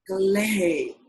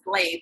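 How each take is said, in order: First: The name is drawn out and melodic. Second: The name is said short in an American accent. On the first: "I draw that out" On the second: "I normally I have the American accent on it"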